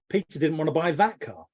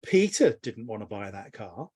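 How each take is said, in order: First: That punched above the rest; stress on that. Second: Peter punched, line rising at the end; stress on Peter. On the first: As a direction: hit the word that. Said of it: "All I've changed is the intonation". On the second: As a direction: hit Peter, lift the end. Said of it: "So if I say". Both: Shown as a demonstration.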